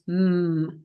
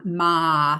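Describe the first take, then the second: First: The consonant is said alone without a vowel. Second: The consonant is followed by an added vowel. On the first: The speaker calls it right. "M is M" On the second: The speaker calls it wrong. "not ba, ma"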